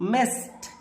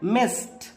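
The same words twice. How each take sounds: Both takes have the same delivery.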